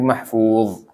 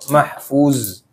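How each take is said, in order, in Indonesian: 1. Konsonan terakhir adalah bunyi dh emfatik. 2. Konsonan terakhir adalah bunyi z biasa. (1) "tapi mahfuz" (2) "Jangan jadi za mahfuz"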